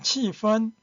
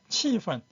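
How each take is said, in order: First: The second syllable has a high level tone. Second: The second syllable is light and unstressed. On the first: This is the dictionary form. "사전에는 气氛 일성을 발음했는데" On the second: This is the everyday spoken form. "실제 생활에서는 气氛 경성으로 하기도 합니다"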